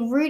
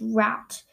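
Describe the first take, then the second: First: It is said like 'root', British or Australian. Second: It is said like 'rowt', the American way.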